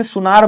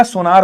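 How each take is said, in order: First: सुनार with a short "u" in the first syllable; spoken form. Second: सोनार with an "o" in the first syllable; variant form. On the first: Teacher giving the usual spoken word, u-vowel pronunciation. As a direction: say सुनार as "su-naar". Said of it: "ऐसे बोलते हैं, शुद्ध होगा सुनार". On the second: Teacher giving the written option, o-vowel pronunciation. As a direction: say सोनार as "so-naar". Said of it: "वैसे सुनार बोला जाता है". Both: Shown as a demonstration.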